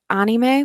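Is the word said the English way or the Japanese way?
Japanese. It is said with a Japanese pronunciation. It follows how it is said in Japan. "in Japan they do pronounce it anime"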